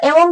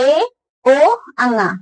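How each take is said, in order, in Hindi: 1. ध्वनियाँ जुड़कर एक शब्द बन जाती हैं। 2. ध्वनियाँ अलग-अलग, बीच में रुककर बोली जाती हैं। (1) "इसको एक साथ बोलेंगे तो एवोंग हो गया" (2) "एवोंग ऐसे नहीं याद हो रहा है तो ए ओ अंगा"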